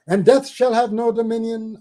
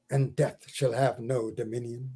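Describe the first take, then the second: First: Higher and louder, ringing refrain. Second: Softer, lower refrain that sinks away; soft stanza close. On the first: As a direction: launch the refrain out boldly. Loud restart of poem refrain. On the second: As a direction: let the line die down gently. Quiet close of poem stanza. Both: Acted.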